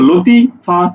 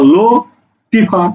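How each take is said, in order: First: The first two syllables run together before a break. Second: The last two syllables run together after a break. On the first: "তুমি কি একসাথে উচ্চারণ করছো" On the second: "তুমি কি একসাথে উচ্চারণ করছো"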